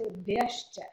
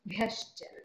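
First: The b is said without a breath of air. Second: The b is said with a strong breath of air. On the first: The speaker calls it wrong. "you cannot say bhyascha" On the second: The speaker calls it right. "you have to breathe out the bha"

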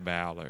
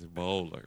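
First: The first syllable sounds like 'bowel'. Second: The first syllable sounds like 'bowl'. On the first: The speaker calls it wrong. "I don't want to go around here with loose bowels" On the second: The speaker calls it right. "just like you bowl"

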